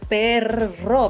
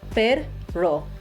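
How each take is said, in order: First: The two syllables run together without a pause. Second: The two syllables are split by a pause. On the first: "instead of perro" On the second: "practice the word separated in those two syllables"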